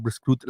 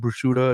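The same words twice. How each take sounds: First: "prosciutto" clipped to "pro-SHOOT", final vowel dropped; Italian pronunciation. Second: Said in the usual way. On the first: Retold or imitated. Wife correcting husband on Italian food, "prosciutto" in Italian pronunciation. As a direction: say "prosciutto" the Italian-American way, ending on the t. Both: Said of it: "she pronounces it correctly".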